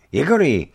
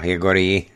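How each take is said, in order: First: Loud, higher anxious cry of the name; an old man shaking the stunned boy; alarmed, louder call of Jegori; worried call. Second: Put-on firm, measured call of the boy's name; a grandfather addressing the boy strictly; stern elder calling Jegori by name. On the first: Acted. Old man finds boy knocked out. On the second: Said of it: "řekl přísně".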